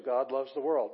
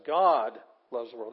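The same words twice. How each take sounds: First: Said in the usual way. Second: GOD drawn out and loud, the rest lighter; emphatic, slow GOD at the front; stress on GOD. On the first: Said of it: "that's about how we'd say it in English". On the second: Shown as a demonstration. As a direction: hit the word God hard, stretching it. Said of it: "This is the thing that's being emphasized".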